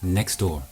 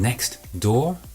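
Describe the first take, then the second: First: The t at the end of next is dropped. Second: The t at the end of next is pronounced.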